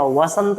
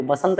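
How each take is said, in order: First: वसंत said slowly with a clear v; correct v sound. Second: बसंत said with a plain b, as people wrongly say it; wrong b sound. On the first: Teacher gives students the correct वसंत with a slow v. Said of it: "वसंत होता है". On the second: Teacher shows students the wrong बसंत with a b sound. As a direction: start बसंत on a b. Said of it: "बसंत नहीं होता". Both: Shown as a demonstration.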